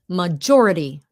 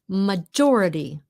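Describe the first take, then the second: Both takes have the same delivery.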